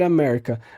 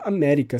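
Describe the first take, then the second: First: It is pronounced with an American English accent. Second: It is pronounced with a Latin American accent. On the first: The name refers to the United States. "Um estadunidense pode falar" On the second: The name claims the whole continent as the speaker's own.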